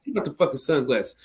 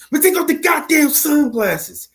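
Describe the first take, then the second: First: Said in the usual way. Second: Much higher and slow, hamming up the movie line; Denzel impression. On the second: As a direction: do Denzel's Frank Lucas delivery, drawn out and pitched way up. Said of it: "Denzel might not have had his voice like that down pat".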